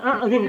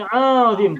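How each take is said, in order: First: The vowel is said short. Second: The vowel is said long. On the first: The speaker calls it wrong. "Bukan a'zim" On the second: The speaker calls it right. "tapi a'zim. Panjang"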